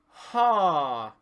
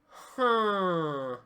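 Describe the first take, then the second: First: The vowel is oral, with sound through the mouth. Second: The vowel is nasal, with sound through the nose.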